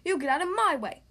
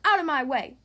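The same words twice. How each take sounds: First: Loud, raised retort; demanding. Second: Loud, forceful burst; yelled order. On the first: Boris pushes Bella back at the party, demanding loudly. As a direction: demand it back, punching the words. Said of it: "demanded Boris". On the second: Bella shoves past Boris into the party, yelling. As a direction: yell to clear the path. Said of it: "yelled Bella". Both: A narrator's reading.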